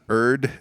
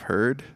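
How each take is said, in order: First: The word starts without an H sound. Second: The word starts with an H sound. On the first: "but not erd" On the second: "instead of herd"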